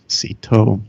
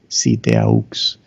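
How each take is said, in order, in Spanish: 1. Algunas letras de la palabra quedan mudas. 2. Se pronuncia cada letra de la palabra. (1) "En inglés decimos" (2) "se pronuncian todas las letras en español"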